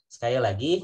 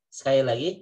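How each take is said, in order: No difference in how they are said.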